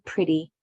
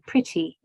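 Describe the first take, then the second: First: The middle consonant sounds like a soft D. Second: The middle consonant is a crisp T sound. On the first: "but we say pretty" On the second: "we should say pretty"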